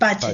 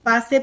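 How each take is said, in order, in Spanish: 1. La consonante del medio es el sonido ch. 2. La consonante del medio es el sonido s. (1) "pero es Pache" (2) "La gente lo conoce como Pase por una cuestión de que le es más cómodo"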